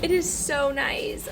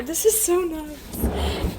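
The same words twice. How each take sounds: First: Said in the usual way. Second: Dog voice. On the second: Real, not acted. Marvelling at fridge space.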